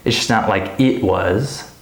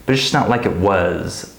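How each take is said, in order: First: "It's just not like it was" with IT separated and stressed. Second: "like it was" linked, "it" weak; unstressed IT. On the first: Teacher showing what not to say, stressed "it". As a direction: detach and punch "it" before "was". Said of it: "so I don't say". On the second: Teacher showing the natural way, unstressed linked "it". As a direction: skim over "it" and land on "was". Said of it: "I'm gonna say". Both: Shown as a demonstration.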